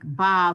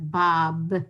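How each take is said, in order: First: The final consonant is a V sound. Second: The final consonant is a B sound. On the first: This is the usual form at the end of a word. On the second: This form is extremely unusual at the end of a word.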